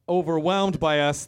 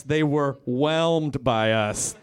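First: Overwhelmed leaned on as the wrong word; stress on overwhelmed. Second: Slow, whelmed drawn out and stressed. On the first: Comic correcting his own word, stress on overwhelmed. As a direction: hit overwhelmed to set up the fix. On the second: Comic correcting his own word, slow stressed whelmed. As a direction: land whelmed slowly like the right word. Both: Shown as a demonstration. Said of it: "That's what I meant to say".

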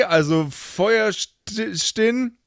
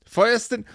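First: Feuerstin slowly, said as Feuer-stin without the E; pronunciation demo. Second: Feuerstin, ending stin not stein; pronunciation demo. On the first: Host reads a supporter name, Feuerstin without the E. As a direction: spell out Feuerstin slowly, no ei sound. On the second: Host repeats the name Feuerstin for listeners. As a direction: say Feuerstin lightly higher. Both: Shown as a demonstration. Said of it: "Feuerstein ohne E".

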